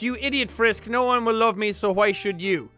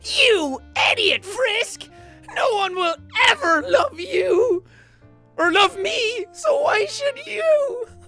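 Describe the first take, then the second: First: It is read in his normal voice. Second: It is said in a put-on Flowey voice.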